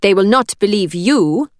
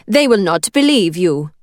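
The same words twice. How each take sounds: First: Put-on steady, firm, Italian accent. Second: Put-on firm, thick Italian accent. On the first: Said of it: "willing her voice to remain steady". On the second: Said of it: "the thickness of her Italian accent". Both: A narrator's reading.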